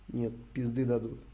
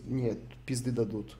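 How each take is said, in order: Both takes have the same delivery.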